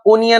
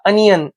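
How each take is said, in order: First: The first vowel sounds like 'o' in 'go'. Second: The first vowel sounds like 'uh' in 'up'. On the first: The speaker calls it wrong. "बरेच जण याला ओनियन वाचतात" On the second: The speaker calls it right. "Correct pronunciation"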